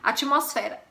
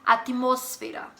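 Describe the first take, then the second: First: The stress is not on the syllable mos. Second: The stress is on the syllable mos. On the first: This is the Portuguese pronunciation. "em português" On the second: This is the Spanish pronunciation. "Sílaba tônica está no mos"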